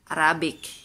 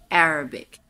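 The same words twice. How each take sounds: First: The stress falls after the first syllable. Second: The stress is on the first syllable. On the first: This is how a Bisaya speaker reads it. The speaker calls it wrong. "kita mga Bisaya na naon nato pagbasa" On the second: This is how it is said in English. The speaker calls it right. "Nasa first syllable"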